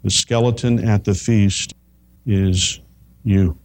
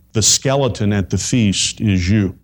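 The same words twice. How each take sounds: First: "The skeleton at the feast is you" spaced out, pause before "is" and before "you"; slow with pauses. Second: Said in the usual way. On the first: Shown as a demonstration. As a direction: let "is" and "you" land apart. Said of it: "repeated with pauses". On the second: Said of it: "repeated line".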